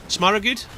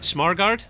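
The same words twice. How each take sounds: First: "Smaragud" with an added middle vowel and a "gud" ending, higher; unsure pronunciation. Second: "Smargard" tried with an ending like "gard", pitched up as a question; unsure pronunciation. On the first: Caster guessing at a player's name, trying "Smaragud" questioningly. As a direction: try "Smaragud" questioningly in three syllables. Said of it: "I'm not sure how to say his name". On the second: Caster asking co-caster about a name, trying "Smargard" as a question. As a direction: say "Smargard" questioningly, rhyming the end with "hard". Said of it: "how do you say that?".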